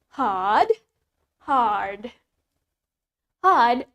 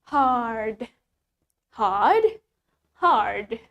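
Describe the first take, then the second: Both takes have the same delivery.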